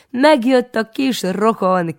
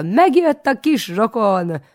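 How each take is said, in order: First: High, loud, slow proud shout; calling out from afar. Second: High, loud, slow shriek. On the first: Proud aunt shouts across the market, high and loud. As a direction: announce him to the whole street. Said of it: "kiabálja már messziről". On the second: Aunt shrieks the news to market folk, high and loud. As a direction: trumpet it to everyone you pass. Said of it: "mindenkinek azt rikoltja". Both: A narrator's reading.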